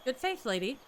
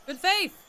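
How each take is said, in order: First: Said in the usual way. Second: High, loud called greeting; calling out greeting. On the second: Real, not acted. Greeting a passing villager from a distance, loud call. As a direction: shout the greeting to catch them.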